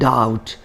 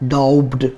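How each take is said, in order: First: The b sound is silent. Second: The b sound is pronounced. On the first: The speaker calls it right. "Here B is also silent, and we should call this doubt" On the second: The speaker calls it wrong.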